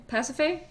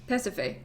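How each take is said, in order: First: "Pasiphae" pitched high with rising end; higher, doubtful "Pasiphae"; questioning pronunciation. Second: "Pasiphae" softer with falling end; settled pronunciation. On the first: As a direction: try "Pasiphae" as an unsure question. Trying out the name's pronunciation. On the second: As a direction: drop "Pasiphae" quietly as a settled answer. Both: Real, not acted.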